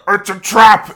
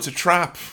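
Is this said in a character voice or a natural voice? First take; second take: character voice; natural voice. First: It is said in a dramatic put-on character voice. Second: It is said casually in the speaker's own voice. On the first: A film character is being imitated. "instead of him going" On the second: The speaker says it as himself. "If it was me going, oh"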